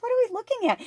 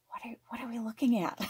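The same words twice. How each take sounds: First: High-pitched repeat. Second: Quick hushed whisper to the dog. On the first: Retelling to viewers, repeating the question high and amused. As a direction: squeak it out, laughing at yourself. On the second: Crouched beside her dog, whispering what are we looking at. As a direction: whisper so you don't spook her. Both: Retold or imitated.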